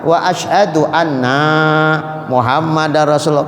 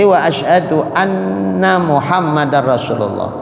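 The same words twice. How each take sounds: First: The vowel in 'anna' is drawn out long. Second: The vowel in 'anna' is kept short. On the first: The speaker calls it wrong. "kadang dibaca orang panjang" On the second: The speaker calls it right. "Jangan panjang nanya"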